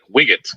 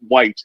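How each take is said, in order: First: It is said as two syllables, like wiggett. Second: It is said as one syllable, like white.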